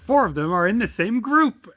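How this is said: The tone is thrilled and excited. The writer sees this as a good thing. "and you'd be so thrilled"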